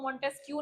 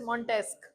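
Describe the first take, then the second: First: The name ends with a kyoo sound. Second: The name ends with a plain k sound. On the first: The speaker calls it wrong. "इसको मॉन्टेस्क्यू नहीं पढ़ना है" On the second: The speaker calls it right. "This is मॉन्टेस्क। Q U E is pronounced as क"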